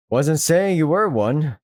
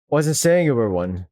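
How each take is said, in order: First: Slowed, laughing through the line; slow laughing second take; laughing retake. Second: Said in the usual way. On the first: Acted. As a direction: redo it slowly with a laugh. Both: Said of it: "Wait, did I say?".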